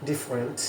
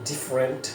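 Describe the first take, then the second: The two takes are said the same way.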